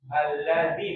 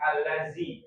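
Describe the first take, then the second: First: The middle consonant is a soft 'dh' sound. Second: The middle consonant is a buzzing 'z' sound. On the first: The speaker calls it right. "kalau kita mengucapkan allazi itu pakai zal" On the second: The speaker calls it wrong. "bukan allazi"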